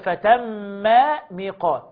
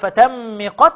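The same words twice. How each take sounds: First: The two m sounds are pronounced separately. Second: The two m sounds are merged into one. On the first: The speaker calls it right. "طب ليه ما أضغمتش؟" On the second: The speaker calls it wrong. "أقول فتم ميقات؟ لا"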